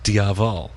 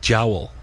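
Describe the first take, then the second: First: It is said with an Americanized pronunciation. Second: It is said with a native Irish pronunciation. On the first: "if you're pronouncing it in kind of American English Irish, it would be kind of just Diaval" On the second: "if you're pronouncing it in Irish, it would be jowl"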